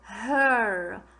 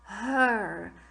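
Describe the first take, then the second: First: The vowel sounds like er. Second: The same.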